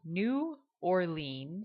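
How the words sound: It is said with a Northern American accent. It is how outsiders say the city's name. "what most Northern people per is how they pronounce that city"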